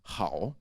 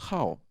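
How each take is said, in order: First: The word is said with a non-fourth tone. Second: The word is said with the fourth tone. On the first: It means good. "It's usually pronounced hao, that would be good" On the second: It means to like. "Is it the fourth tone? Oh yeah"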